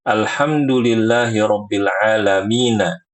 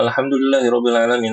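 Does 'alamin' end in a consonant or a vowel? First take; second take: vowel; consonant. First: The last word ends with an added na vowel. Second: The last word ends on a bare n sound. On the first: The speaker calls it right. "Nanya dibaca juga" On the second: The speaker calls it wrong. "Tidak mempaha- memperhatikan harokat akhir di setiap ayat"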